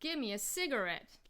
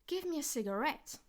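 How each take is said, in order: First: The pitch changes on the first syllable. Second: The pitch rises on the last syllable. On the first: This is the American way. "the sig would be would have the change in pitch" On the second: This is the British way. "So I go up on ret"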